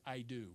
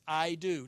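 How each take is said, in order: First: Low, softly spoken wedding vow; grave, understated pledge; solemn vow. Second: "I do" said loud and firm; "I do" with firm, full-voiced weight; emphatic vow. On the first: Acted. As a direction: say it hushed and final, as at the altar. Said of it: "emphatically, he stands before people". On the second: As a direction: land "I do" as a settled declaration. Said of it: "And, and it's emphatic".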